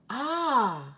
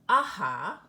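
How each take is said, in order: First: The word ends on the vowel, without h. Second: The word ends with an audible breathy h. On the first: The speaker calls it right. "Listen to how we would read these words" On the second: The speaker calls it wrong. "It isn't aha or yeah"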